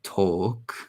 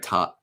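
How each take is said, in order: First: The word is said with a British vowel. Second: The word is said with an American vowel. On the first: "trying to imitate" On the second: "Americans just like talk"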